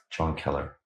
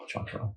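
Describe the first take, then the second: First: Said in the usual way. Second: Breathy whisper of Yeah, John Keller; whispered name. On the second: Real, not acted. Recalling a respected professor, whispers his name. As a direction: softly whisper the name to yourself.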